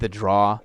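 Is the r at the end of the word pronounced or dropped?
dropped. The final r sound is dropped. "I don't have my R's"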